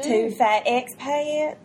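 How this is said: It is said in a Southern US accent. "I do a really good Southern accent"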